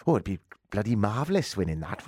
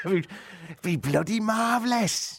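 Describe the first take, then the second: First: Said in the usual way. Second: Slow, drawn-out West Country drawl, pitched higher; hammed-up West Country delight; West Country accent. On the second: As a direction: savour it like a West Country local. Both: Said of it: "That's gone a bit West Country".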